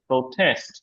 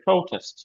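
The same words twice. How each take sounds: First: The stress is on the second syllable. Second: The stress is on the first syllable. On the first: It is used as a verb. "ভার্বের ক্ষেত্রে space একটু ঝামেলা আছে" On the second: It is used as a noun. "আর নাউনের ক্ষেত্রে"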